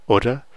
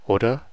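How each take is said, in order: First: The word is said quickly and shortened. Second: The word is said quickly and shortened.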